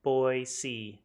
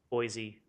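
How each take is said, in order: First: The middle consonant is a soft S sound. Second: The middle consonant is a buzzing Z sound. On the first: This is how a local says it. "I won't say it like that" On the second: This is how an outsider says it. "like I don't belong here. the Z"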